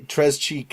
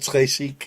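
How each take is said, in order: First: The second word starts with a 'ch' sound. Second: The second word starts with a 'sh' sound. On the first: The speaker calls it wrong. "some of the things he pronounces" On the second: The speaker calls it right. "instead of"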